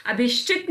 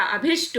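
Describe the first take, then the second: First: अभिष्टित ending "-shtit"; the mistaken form अभिष्टित; wrong ending. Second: अभिष्ट ending on "-sht"; no "-it" after अभिष्ट; the short form अभिष्ट; correct ending. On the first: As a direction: add "-it" at the end of अभिष्टित. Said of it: "अभिष्टित नहीं होता". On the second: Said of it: "अभिष्ट होता है". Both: Shown as a demonstration.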